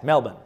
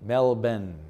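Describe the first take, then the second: First: Quick, casual MEL-bn for Melbourne; Melbourne in one quick go, as locals say it; said fast. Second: Melbourne as MEL-ben, both syllables separate; measured teaching take of Melbourne as MEL-ben; careful demonstration. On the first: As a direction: run Melbourne together, swallowing the ending. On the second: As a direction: sound out Melbourne evenly, ending like Benjamin. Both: Shown as a demonstration. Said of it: "And you say it fast".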